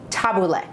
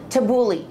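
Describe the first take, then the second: First: It is said the traditional way. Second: It is said the common modern way. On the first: The speaker calls it right. "Actual pronunciation" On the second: The speaker calls it wrong. "nowadays you hear people call it"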